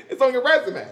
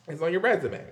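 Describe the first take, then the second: First: A loud punchline laughed out; tossing off the punchline mid-laugh. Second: Said in the usual way. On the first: Real, not acted. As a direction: still laughing, louder and higher.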